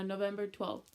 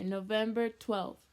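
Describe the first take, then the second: First: Said in the usual way. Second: "November twelfth" said louder and slower, each word weighted; emphatic repeat. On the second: Shown as a demonstration. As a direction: hammer home "November twelfth" as an unforgettable date. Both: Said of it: "That date is stuck in here".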